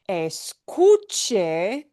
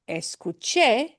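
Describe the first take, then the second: First: The stress is on the middle syllable. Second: The stress is on the final syllable. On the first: It is a form that is not past tense. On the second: It means I heard, in the past.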